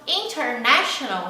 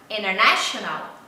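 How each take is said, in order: First: The t after the n is clearly pronounced. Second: The t after the n is left out.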